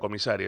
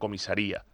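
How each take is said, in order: First: The stress falls on the syllable 'sa'. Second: The stress falls on the syllable 'ri'. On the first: A high-ranking official. "Es una cuestión de acento" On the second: A police station. "en acento en la I"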